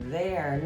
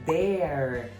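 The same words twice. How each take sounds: First: It begins with a soft voiced 'th' sound. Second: It begins with a hard 'd' sound, like dare. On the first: The speaker calls it right. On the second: The speaker calls it wrong.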